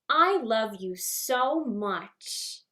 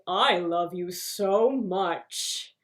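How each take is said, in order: First: It is said in a childlike Orphan Annie voice. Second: It is said very low like Gaston.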